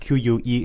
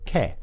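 First: It begins with a kw sound. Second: It begins with a plain k sound. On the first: "in English Q-U-E is Que" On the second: "but in French Q-U-E is Que"

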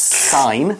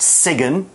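First: The G sound is not pronounced in the word. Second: The G sound is pronounced in the word. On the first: The speaker calls it right. "It's a silent G, it's sign" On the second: The speaker calls it wrong. "it's not sign"

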